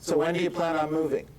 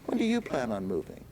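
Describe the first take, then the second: First: It sounds flat and unengaged. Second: It sounds warm and genuinely interested.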